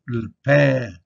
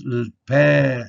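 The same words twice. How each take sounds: First: Le pain, nasal end, N silent; nasal vowel. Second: Le pain with nasal ending, no N heard; nasal vowel. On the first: Teacher repeating bread with a nasal vowel. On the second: Teacher showing the nasal sound in bread. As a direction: say pain through the nose, drop the N. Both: Shown as a demonstration. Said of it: "It's a nasal sound".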